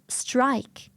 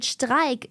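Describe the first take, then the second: First: English-style strike, s at the start; English pronunciation. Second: Streik with sh before the t; German-style Streik, sh at the start; German pronunciation. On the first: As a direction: strike with a plain s before the t. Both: Shown as a demonstration. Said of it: "replacing the word".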